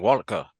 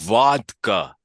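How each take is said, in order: First: The word is said at a normal pace. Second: The word is said slowly and carefully. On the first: "you're normally just like" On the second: "have to enunciate slowly like that"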